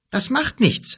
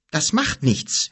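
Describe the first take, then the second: First: Higher, louder brave boast; a boy brushing off the danger, pitched up; determined boy. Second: Put-on a boy insisting slowly to the wizard; stubborn repeat. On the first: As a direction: toss it off boldly. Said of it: "Kim brave, first time". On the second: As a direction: say it again, steady and stubborn. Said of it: "wiederholte Kim". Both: A narrator's reading.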